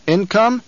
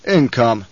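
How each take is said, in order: First: Sharp disbelieving rise, pitched high; incredulous question. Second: Said in the usual way. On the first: Acted. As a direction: throw the word back in disbelief. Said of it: "Baron's incredulous echo". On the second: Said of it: "Raban answers the Baron".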